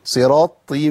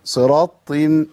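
The two takes are said the same way.

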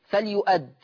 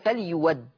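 First: The middle consonant is a glottal stop. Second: The middle consonant is a w sound. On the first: "لاحظوا الهمزة، الهمزة تشكلها مفتوحة" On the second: "الإبدال واو مفتوحة فتصير فليود"

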